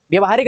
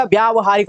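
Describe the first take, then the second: First: व्यवहारिक opened as vya; short first vowel. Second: व्यावहारिक opened as vyaa; long first vowel. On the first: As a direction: keep व्यवहारिक short at the start. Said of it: "नहीं होता". (व्यवहारिक, छोटा व्य) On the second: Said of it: "होता है". (व्यावहारिक, लंबा व्या) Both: Shown as a demonstration.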